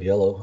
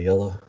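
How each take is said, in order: First: It is said in a standard accent. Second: It is said in a Southern accent.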